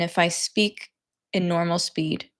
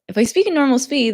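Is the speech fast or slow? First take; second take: slow; fast. First: It is spoken at a slow, careful pace. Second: It is spoken at a fast, natural pace.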